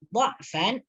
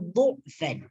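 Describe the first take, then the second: First: The first syllable has the vowel 'a'. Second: The first syllable has the vowel 'u'.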